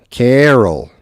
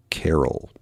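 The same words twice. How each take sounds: First: Carol drawn out and higher, louder. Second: Carol said the Wisconsin way, KEHR-ul. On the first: Retold or imitated. Imitating the son-in-law's drawn-out carol. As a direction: stretch carol like the son-in-law might. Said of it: "maybe his son-in-law drags it out". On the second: Shown as a demonstration. Vlogger says carol for a listener to compare. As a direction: say carol in his own Midwestern way. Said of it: "he wants me to say a word".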